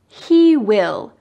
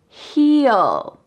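First: It is said as two full words, 'he will'. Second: It is said as one contracted word, 'he'll'. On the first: "What about these words?" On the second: "Let's take out W and I and make it he'll"

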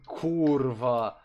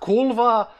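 First: The middle consonant is an R sound. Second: The middle consonant is an L sound. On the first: The speaker calls it right. "it's Kurva. That's how it says it" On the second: The speaker calls it wrong. "It's not Kulva"

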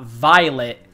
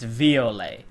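First: The name is said with an English pronunciation. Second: The name is said with a French pronunciation. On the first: The speaker calls it wrong. "her name's not Violet" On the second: The speaker calls it right. "she's French, so ... it's Violet"

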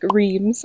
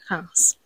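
First: It is read with an English-style pronunciation. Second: It is said with a French pronunciation. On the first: "it looks like reims in English" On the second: "but the French pronounce it house"

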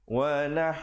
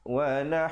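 Both takes have the same delivery.

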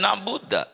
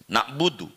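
First: The word ends with an 'a' vowel. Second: The word ends with an 'u' vowel. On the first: The speaker calls it wrong. "dibaca na'buda, fathah" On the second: The speaker calls it right. "fi'il mudhari itu dibaca rofa"

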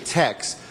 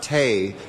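First: The name ends with a 'ks' sound. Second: The name ends in a plain vowel sound. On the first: The speaker calls it right. "It's actually" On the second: The speaker calls it wrong. "many people mispronounce the restaurant"

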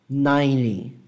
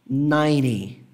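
No difference in how they are said.

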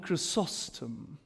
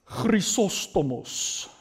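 First: The name is said with a polished English pronunciation. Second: The name is said with a Greek pronunciation. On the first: "In very, very eloquent English" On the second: "That's a correct Greek pronunciation"

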